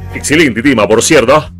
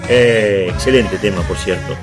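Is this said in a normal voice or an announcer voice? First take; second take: announcer; normal. First: It is said in a put-on announcer voice. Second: It is said in an ordinary speaking voice.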